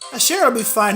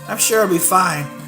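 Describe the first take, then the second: First: It is read in a put-on character voice. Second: It is read in the speaker's ordinary voice.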